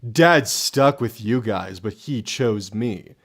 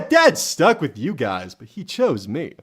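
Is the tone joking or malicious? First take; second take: malicious; joking. First: It is said in a mean, spiteful tone. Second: It is said in a light, teasing tone. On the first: The remark is meant to hurt. "If that was the tone, then yeah, that's meant to be malicious" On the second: The remark is just a joke. "more like joking"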